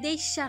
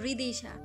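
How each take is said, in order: First: The second vowel sounds like 'e'. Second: The second vowel sounds like 'i'. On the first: The speaker calls it wrong. "না" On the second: The speaker calls it right. "রিদিশা হবে।"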